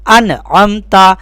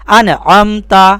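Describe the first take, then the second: Both takes have the same delivery.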